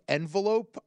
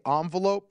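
First: "envelope" with an EN start, as in "end"; EN-velope pronunciation. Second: "envelope" with an ON start; ON-velope pronunciation. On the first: Retold or imitated. Host quoting his co-host's word, "envelope" said EN-velope. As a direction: say "envelope" starting with a short EH sound. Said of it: "Amal said the word white envelope". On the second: Shown as a demonstration. Host showing his own way, "envelope" said ON-velope. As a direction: say "envelope" as AHN-velope, opening on an AH. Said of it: "I say envelope".

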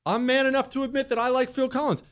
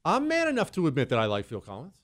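First: High-pitched, emphatic declaration; proud proclamation. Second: Said in the usual way. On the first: Real, not acted. Repeats confession as proud proclamation.

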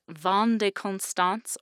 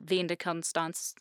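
First: Vin de Constance with a French-like "Vahn"; guessed pronunciation. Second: Vin de Constance with "Vin" as "veen"; alternative pronunciation. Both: Shown as a demonstration. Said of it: "I guess".

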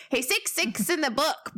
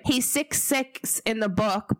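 First: Said in the usual way. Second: Slow New Zealand accent take. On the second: Shown as a demonstration. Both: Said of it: "I sounded so Kiwi then".

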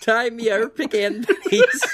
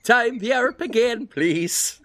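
First: "Time Yorp again" with a twisted "Yorp" vowel. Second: "Time the Europe again" with bent, wobbly vowels. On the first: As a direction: sing "Yorp" in place of warp, laughing. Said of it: "Did you turn it into Yorp?". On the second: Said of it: "if I made the vowels a bit wobbly". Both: Shown as a demonstration.

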